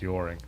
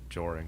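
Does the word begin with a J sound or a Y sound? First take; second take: Y sound; J sound. First: The word begins with a soft Y sound. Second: The word begins with a hard J sound. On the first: "maybe it's a soft J. Maybe it's yoring" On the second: "Not joring"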